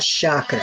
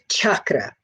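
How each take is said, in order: First: It begins with a soft 'sh' sound. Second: It begins with a hard 'ch' sound. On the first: The speaker calls it wrong. "and not chakra" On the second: The speaker calls it right. "the correct pronunciation is chakra with a hard C H"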